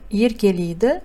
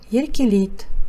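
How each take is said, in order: First: The word ends with a full final vowel. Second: The final vowel is dropped, ending on t. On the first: This is how the word is written. "Пишется" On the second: This is how the word is actually read. "читается"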